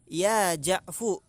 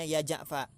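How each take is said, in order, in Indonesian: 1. Nama itu berakhir dengan vokal 'u'. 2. Nama itu berakhir dengan vokal 'a'. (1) "domah fa-nya" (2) "fa-nya dipatah. Maka bacanya ya Ja'fa"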